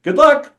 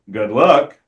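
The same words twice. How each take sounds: First: It sounds sincere and well-meaning. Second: It sounds sarcastic and ominous.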